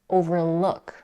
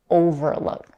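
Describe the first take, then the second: First: The main stress falls on the last part. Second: The main stress falls on the first part. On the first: The speaker calls it right. "the primary stress is on the stem, in this case look. It's overlook" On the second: The speaker calls it wrong. "not overlook"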